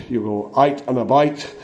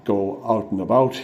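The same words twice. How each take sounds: First: Ulster "out and about" said "ite and abite" with a rise; Northern Irish accent. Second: Said in the usual way. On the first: Shown as a demonstration. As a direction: Belfast "you go out and about", rising at the end. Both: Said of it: "a little bit of Scottish".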